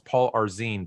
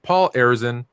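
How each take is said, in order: First: The surname is said as Arzine. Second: The surname is said as Arizin. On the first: The speaker calls it wrong. "I always say it's Paul Arzine, but it's not Paul Arzine" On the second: The speaker calls it right. "It's Paul Arizin, as a matter of fact"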